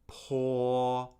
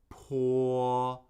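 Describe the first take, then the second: No difference in how they are said.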